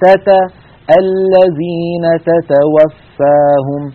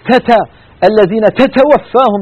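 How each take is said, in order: First: The t sounds are released with a slight breath. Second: The t sounds are released with a large breath. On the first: The speaker calls it right. "ولا نبترها بترا ولا نبالغ في همسهما" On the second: The speaker calls it wrong. "بيقول تتا إيش تتا هذا، يعني شيء مخيف"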